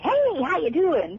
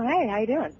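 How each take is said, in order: First: The voice is put-on and exaggerated. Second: The voice is relaxed and natural. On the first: This is the older, character-heavy style. The speaker calls it wrong. "It wouldn't be" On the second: This is the current, contemporary style. The speaker calls it right. "It would be, you know"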